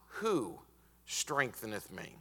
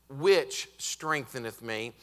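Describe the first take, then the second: First: "who strengtheneth me" slower, trailing softer after "who"; stress on who. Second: "Which strengtheneth me" slow, leaning on "Which"; stress on which. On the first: Preacher showing the wrong pronoun to the church, stressing who. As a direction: set "who" apart with a pause. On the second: Preacher contrasting the pronoun for the congregation, stressing which. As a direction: hit "Which" hard and slow. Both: Shown as a demonstration.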